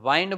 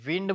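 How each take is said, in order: First: The vowel sounds like the word 'eye'. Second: The vowel sounds like the 'i' in 'it'. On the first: It means to wrap around. "વાઇન્ડ બોલો તો વીંટાળવું થાય" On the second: It means moving air. "વિન્ડ બોલો તો પવન થાય"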